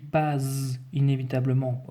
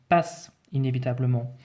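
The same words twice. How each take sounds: First: The middle consonant is a buzzing Z sound. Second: The middle consonant is a hissing S sound. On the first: The speaker calls it wrong. "si je ne mets qu'un seul S, je vais devoir dire Z" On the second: The speaker calls it right. "Or non, je dis passe inévitablement"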